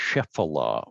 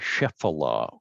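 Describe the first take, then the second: First: It is said with three syllables. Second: The same.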